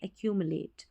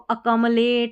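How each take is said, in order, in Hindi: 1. 'k' के बाद 'yoo' की आवाज़ है। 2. 'k' के तुरंत बाद 'm' है।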